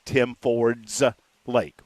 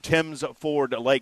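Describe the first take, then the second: First: The s sound ends the second word. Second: The s sound ends the first word. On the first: The lake belongs to a man named Tim Ford. The speaker calls it wrong. "I thought the guy's name was Tim Ford, and it was his lake" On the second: The lake is named after a family called Timms. The speaker calls it right. "Don't say that one wrong"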